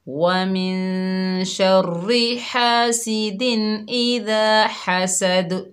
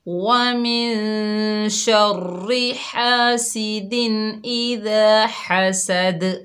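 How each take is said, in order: Both takes have the same delivery.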